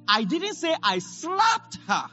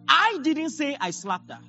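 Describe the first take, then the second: First: The stress falls on the word slapped. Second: The stress falls on the first word, I. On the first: The action was something other than a slap. "Maybe I kicked her" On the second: Someone else said it. "I stressed I didn't say I slapped her. It means someone else"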